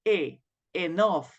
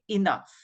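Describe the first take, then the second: First: The word starts with a full 'a' vowel. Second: The word starts with a weak, short vowel. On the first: The speaker calls it wrong. "we don't say a enough. No, it's not correct" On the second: The speaker calls it right. "we say enough"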